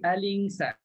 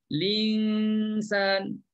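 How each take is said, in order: First: The word starts with an 'a' vowel before 'l'. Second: The word starts directly with the 'l' sound. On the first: "mengisbatkan hamzah wasal baris atas" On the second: "Kita hidupkan lam terus"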